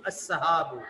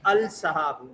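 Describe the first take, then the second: First: The l is silent and merges into the next sound. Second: The l of the article is clearly pronounced. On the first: The speaker calls it right. "ये लाम साइलेंट हो जाएगा" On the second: The speaker calls it wrong. "ये पढ़ने का अंदाज गलत है"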